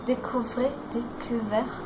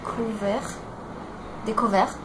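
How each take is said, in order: Both takes have the same delivery.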